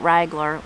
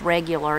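First: The word is squeezed into two syllables. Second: The word is said with all three syllables. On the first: "So Pap said regular like that" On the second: "So that's just regular"

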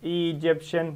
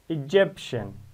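First: The stress is on the first syllable. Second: The stress is on the second syllable. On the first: The speaker calls it wrong. "Don't say, for example" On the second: The speaker calls it right. "Egyptian, stress number two"

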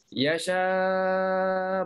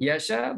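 First: The long vowel is held for six counts. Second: The long vowel is held for two counts. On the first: "boleh enam" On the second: "boleh dua rakaat"

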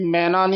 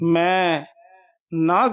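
First: It runs together as one word. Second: It is split into two separate words. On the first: It names the myna bird. The speaker calls it wrong. "ये मैना नहीं कहना, मैना पंछी का वाचक है" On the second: It means 'I do not'. The speaker calls it right. "मैं ते यमक ला के"

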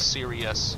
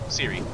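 First: The word is said with all three syllables. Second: The word is squeezed into two syllables. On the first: "actually say both syllables" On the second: "I just say two"

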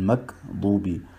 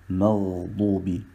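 First: The middle consonant is a hard g stop. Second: The middle consonant is a throaty gh sound. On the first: The speaker calls it wrong. "sie wandeln das R in ein G um und das ist natürlich falsch" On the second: The speaker calls it right. "Das heißt korrekterweise"

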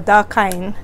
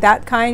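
First: It is said in a Hawaiian Pidgin accent. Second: It is said with standard English pronunciation. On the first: "we go da kind" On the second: "instead of saying that kind"

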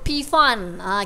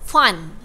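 First: The initial P is pronounced before the word. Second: The initial P is silent in the word. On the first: The speaker calls it wrong. "kita tak sebut P Fan" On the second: The speaker calls it right. "kita silent P eh, kita sebut Fun"

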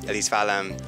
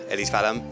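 Both takes have the same delivery.

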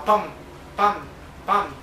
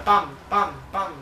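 First: The beats come slowly with gaps between them. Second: The beats come quickly one after another. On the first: The weapon fires at a lower rate. "c'ha il ratio di fuoco molto più basso" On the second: The weapon fires at a higher rate. "l'altra era più veloce a sparare"

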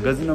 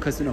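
First: The word begins with a voiced G sound. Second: The word begins with a voiceless K sound. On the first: The speaker calls it wrong. "Gazino mu" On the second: The speaker calls it right. "bunun doğrusu kasino bu arada"

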